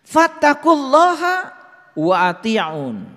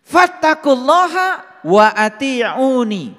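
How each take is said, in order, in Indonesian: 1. Kata terakhir berakhir tanpa vokal 'i' di akhir. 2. Kata terakhir berakhir dengan vokal 'i' di akhir.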